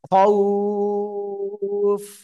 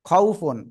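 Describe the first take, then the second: First: The vowel is drawn out and the word stops. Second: The vowel is short and the word runs on. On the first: The reader stops on this word. "থেমে গেলে তিন আলিফ টান হবে" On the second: The reader continues without stopping. "লিনের হরফে সিম্পলি তাড়াতাড়ি পড়তে হয়, কোনো টেনে পড়া যায় না"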